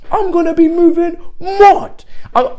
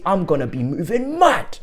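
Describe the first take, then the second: First: Much higher, louder yelled repeat; real excited shout. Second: Said in the usual way. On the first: Real, not acted. Fan yelling about the new signing, thrilled. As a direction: scream it out with joy.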